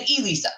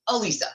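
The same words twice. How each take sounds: First: The name begins with an "ee" vowel sound. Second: The name begins with an "uh" vowel sound. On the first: The speaker calls it wrong. "it's not said Elisa" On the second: The speaker calls it right. "Lisa with an uh in the beginning"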